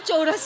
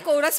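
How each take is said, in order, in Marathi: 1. हा शब्द 'ch' आवाजाने सुरू होतो. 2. हा शब्द 'k' आवाजाने सुरू होतो. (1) "नाही चोरस वगैरे" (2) "कोरस म्हणतात त्याला"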